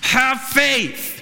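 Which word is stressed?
faith. The stress is on the word faith.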